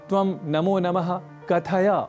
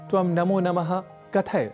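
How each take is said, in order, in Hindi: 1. अंतिम छोटा अ स्वर बोला जाता है। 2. अंतिम छोटा अ स्वर छूट जाता है।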